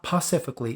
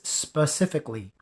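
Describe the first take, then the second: First: The word begins with a 'p' sound. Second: The word begins with an 's' sound. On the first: The speaker calls it wrong. "It is not pacifically" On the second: The speaker calls it right. "it's specifically"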